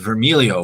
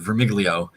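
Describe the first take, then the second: First: The G sound is silent in the name. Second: The G sound is pronounced in the name. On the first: "which is the Italian pronunciation where the G does not get pronounced" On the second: "half of my family says what you said"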